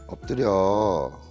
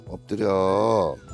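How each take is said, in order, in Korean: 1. 이 명령은 애원하는 말투로 말합니다. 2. 이 명령은 애원하는 말투로 말합니다.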